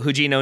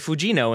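First: The name starts with an h sound. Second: The name starts with an f sound. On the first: The speaker calls it right. "it's a H sound" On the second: The speaker calls it wrong. "I would have said Fujino until I learned that apparently Japanese doesn't have an F"

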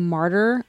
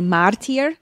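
First: The word is pronounced the standard way. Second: The word is pronounced a nonstandard, variant way. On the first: The speaker calls it right. "instead of saying martyr" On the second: The speaker calls it wrong. "would say martyr"

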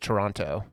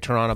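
First: The second T sound is clearly pronounced. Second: The second T sound is dropped. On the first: This is how people elsewhere say the name. "every here everyone says Toronto" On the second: This is how locals say the name. "we say Toronto"

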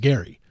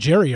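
First: The name begins with a hard G sound. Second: The name begins with a J sound. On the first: The speaker calls it right. "I know his name is Gary" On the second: The speaker calls it wrong. "I'll still just throw out a Jerry"

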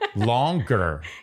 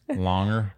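First: It is said with a hard G sound. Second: It is said without a hard G sound. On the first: "In a longer way" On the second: "it's a waste of time to say the G"

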